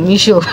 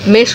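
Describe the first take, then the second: First: The first vowel sounds like 'ee' in 'meet'. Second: The first vowel sounds like 'e' in 'met'. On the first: The speaker calls it right. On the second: The speaker calls it wrong. "মেশো না রে"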